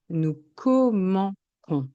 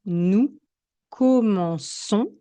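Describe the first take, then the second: First: "commençons" said wrongly as "commencons", ç as k; hard K. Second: "commençons" with ç said as s; soft S. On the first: Teacher shows the missing cedilla, hard k in "commençons". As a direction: say "commençons" slowly with a k before -ons. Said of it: "le son sera ch". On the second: Teacher gives the cedilla example, soft s in "commençons". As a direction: say "commençons" slowly, an s sound before -ons. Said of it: "on obtiendra le son". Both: Shown as a demonstration.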